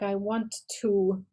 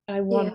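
First: Both words "want to" are said fully and separately. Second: "Want to" is reduced and linked into "wanna". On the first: "You speak quite specifically, so you might say like I want to" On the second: "whereas fast speech might be"

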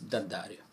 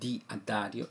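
First: The 'di' merges into the following vowel. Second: The 'di' is said as its own syllable. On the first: The speaker calls it right. "it's d'addario" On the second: The speaker calls it wrong. "it's not di addario"

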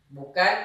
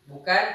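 Both takes have the same delivery.

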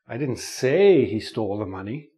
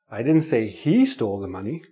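First: The stress falls on the word 'say'. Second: The stress falls on the word 'he'. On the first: The speaker only hinted it without saying it. "Maybe I hinted it" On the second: Someone else stole the money, not him. "Somebody else stole the money"

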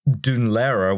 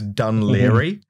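First: The name is given an Irish-language pronunciation. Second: The name is given an anglicized pronunciation. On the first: This is the closest to the agreed Irish form. "if you want to try and pronounce it in Irish" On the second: This is the common anglicized form. "the anglicized pronunciation, which like half of people use"

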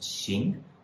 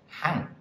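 First: The syllable starts with an x sound: xing. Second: The syllable starts with an h sound: hang. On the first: It means to walk or conduct. "which can be pronounced 行" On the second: It means a row or a profession. "If it's hang"

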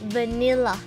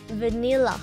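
Both takes have the same delivery.

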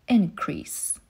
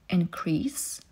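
First: The stress is on the first syllable. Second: The stress is on the second syllable. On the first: It is used as a noun. "w przypadku rzeczownika pierwszą" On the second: It is used as a verb. "w przypadku czasownika zazwyczaj akcentujemy drugą sylabę"

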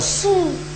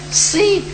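First: The vowel sounds like u. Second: The vowel sounds like i, lips rounded. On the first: The speaker calls it wrong. "bukan su. Su tak ada" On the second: The speaker calls it right. "Si, tapi mulut muncul"

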